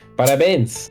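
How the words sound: It sounds like a Spanish speaker's Portuguese.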